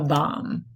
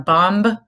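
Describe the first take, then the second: First: The final B is silent. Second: The final B is pronounced. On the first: The speaker calls it right. "it's a bomb" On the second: The speaker calls it wrong. "It's not a bomb"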